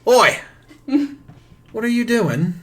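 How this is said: It is said in a pirate voice.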